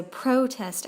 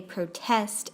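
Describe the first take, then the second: First: "protest" as a noun, PRO-test; first-syllable stress. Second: "protest" as a verb, pro-TEST; last-syllable stress. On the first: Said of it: "nouns on the first". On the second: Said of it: "verbs tend to be stressed on the last syllable". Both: Shown as a demonstration.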